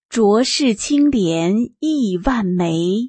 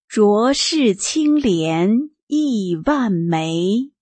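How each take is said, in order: First: The line is read at a normal pace. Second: The line is read at a slower pace.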